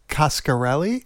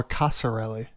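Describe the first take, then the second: First: "Coscarelli" with a k sound after the s; "Coscarelli" with its middle c hard. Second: "Coscarelli" with no k sound after the s; "Coscarelli" with its middle c dropped; Coscarelli with silent c. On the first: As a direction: say "Coscarelli" as kos-ka-RELL-ee, k sounded. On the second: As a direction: say "Coscarelli" as kos-a-RELL-ee. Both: Shown as a demonstration. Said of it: "see now, is it".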